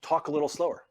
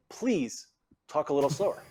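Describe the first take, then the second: First: Very direct. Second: Polite request, lifted please, rising end; courteous request with a small pause after please; more polite. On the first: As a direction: direct instruction, firm falling end. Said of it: "if I wanna be very direct". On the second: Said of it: "be a little more polite". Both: Shown as a demonstration.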